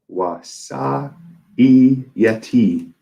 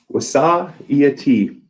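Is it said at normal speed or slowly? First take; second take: slowly; normal speed. First: It is said very slowly. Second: It is said at normal speed.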